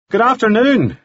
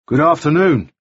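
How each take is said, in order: First: High, carrying call across the ridge; called out greeting. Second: A touch higher, more reserved reply; returned greeting. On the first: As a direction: call it up to the stranger below. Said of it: "he called". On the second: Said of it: "returned the other". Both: A narrator's reading.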